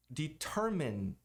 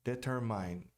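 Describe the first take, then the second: First: "Determine" said de-TER-min, short i; slow "Determine" rhyming with min; correct English determine. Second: "Determine" ending like "mine", de-ter-MAIN; learner's "Determine" with a long -mine; wrong determine. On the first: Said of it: "A pronúncia correta é determine". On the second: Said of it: "e não determine". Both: Shown as a demonstration.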